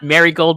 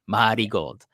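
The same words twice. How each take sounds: First: It is said with plain English pronunciation. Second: It is said with Japanese katakana-style pronunciation. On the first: The speaker calls it wrong. "so it's not Marigold" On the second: The speaker calls it right. "the kind of like the katakana pronunciation"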